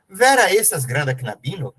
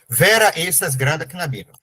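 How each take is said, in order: First: It is said with a questioning tune. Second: It is said with a plain statement tune. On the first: It asks something. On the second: It states a fact.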